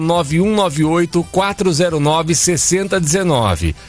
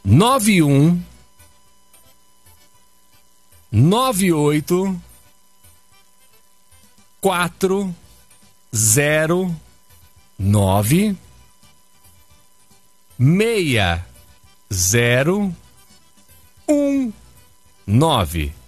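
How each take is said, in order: First: It is said at normal speed. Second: It is said very slowly.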